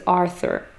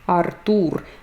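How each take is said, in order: First: The name is said the English way. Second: The stress falls on the second syllable.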